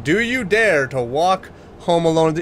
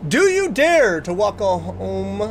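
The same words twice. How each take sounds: First: Said in the usual way. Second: Slow eerie trailer voice; drawn-out horror narrator read; spooky announcer. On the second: Shown as a demonstration. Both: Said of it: "Let me try that one more time".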